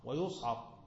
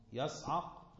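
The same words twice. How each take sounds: First: ويصعق said "wa-yus'aq", u after the y; ويصعق as wa-yus-'aq; passive form. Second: يصعق said "yas'aq", a after the y; يصعق as yas-'aq; active form. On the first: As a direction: round the y of ويصعق to "yu". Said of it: "على البناء للمفعول". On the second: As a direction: open يصعق with a short a, "yas-". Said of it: "المبني المعلوم الفاعل تبقى إيه". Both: Shown as a demonstration.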